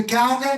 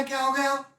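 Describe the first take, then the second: First: Higher, startled "क्या हो गया" with the pitch jumping up; surprised question. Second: "क्या हो गया" again, higher and much softer, an almost hushed concern; softer surprised repeat. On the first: (ऊँची आवाज़ में चौंककर "क्या हो गया") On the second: (धीमी, चिंतित आवाज़ में "क्या हो गया") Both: Retold or imitated. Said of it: "बोलेगी क्या ना".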